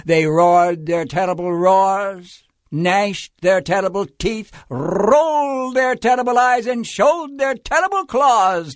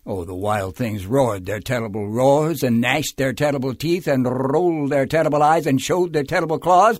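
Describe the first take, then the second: First: Narration climbing higher and louder; dramatic storytelling build. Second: Rushed storytelling refrain. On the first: Wild things menace Max on arrival, loud rising narration. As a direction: build each phrase bigger, punching the monster verbs. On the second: Wild things protest Max leaving, quick rolling narration. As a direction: rattle the list off quickly in one run. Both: A narrator's reading.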